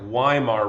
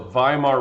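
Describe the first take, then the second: First: The word begins with a W sound. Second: The word begins with a V sound. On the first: The speaker calls it wrong. "I know it looks like Weimar Republic" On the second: The speaker calls it right. "W's in Germany are pronounced as V's"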